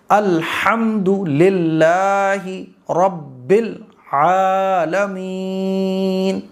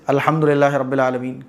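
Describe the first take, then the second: First: Very slow, drawn-out melodic recitation; slow qirat style. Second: Quick, careless reading; hurried recitation. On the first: Teacher showing the correct slow qirat. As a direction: recite with stretched, careful qirat. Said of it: "ایسے". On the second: Teacher showing the careless fast way. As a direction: rush through it. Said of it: "کبھی نہیں ٹھیک ہوگی". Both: Shown as a demonstration.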